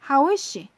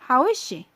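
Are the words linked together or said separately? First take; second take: linked; linked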